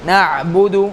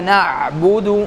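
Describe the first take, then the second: No difference in how they are said.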